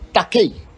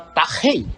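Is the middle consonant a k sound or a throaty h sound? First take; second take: k sound; throaty h. First: The middle consonant is a hard k sound. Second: The middle consonant is a throaty, raspy h sound. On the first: The speaker calls it wrong. "ele não tem som de ki" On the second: The speaker calls it right. "ele tem som de ri"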